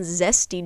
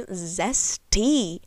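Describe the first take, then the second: First: Said in the usual way. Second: "Zesty" stretched with a falling sass; drawn-out sassy "Zesty". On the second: Shown as a demonstration. On her dressing choice, a savoured "Zesty". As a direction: savour the word "Zesty" with attitude. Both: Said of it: "I don't know why I said zesty like that".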